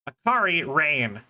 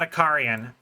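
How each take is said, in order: First: The name is split into two words. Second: The name is run together as one word. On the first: The speaker calls it right. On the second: The speaker calls it wrong. "not Akarian"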